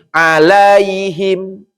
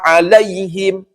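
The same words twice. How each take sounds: First: The 'ai' sound flows and is drawn out. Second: The 'ai' sound is pressed and clipped short. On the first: The speaker calls it wrong. "Eta mah dialirkan. Bukan ditekan" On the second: The speaker calls it right. "Maka ditekan saja, jangan ngalir"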